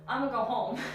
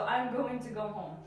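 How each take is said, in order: First: I'm going to is reduced to I'ma. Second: I'm going to is said in full.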